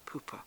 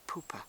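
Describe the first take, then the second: First: The first syllable sounds like 'poo'. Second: The same.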